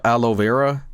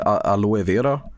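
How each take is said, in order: First: It is said with an English pronunciation. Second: It is said with a Swedish pronunciation. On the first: The speaker calls it right. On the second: The speaker calls it wrong.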